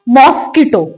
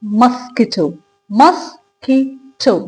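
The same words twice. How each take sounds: First: Mosquito with an open first vowel, "MOSS-kito"; wrong pronunciation. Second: Mosquito as "muh-SKEE-toh", then syllable by syllable; slow, careful "mus... kee... to" for mosquito; correct pronunciation. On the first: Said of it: "No, that's incorrect". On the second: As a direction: model mosquito with a short "muh" first vowel. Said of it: "इसका correct version क्या रहता है". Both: Shown as a demonstration.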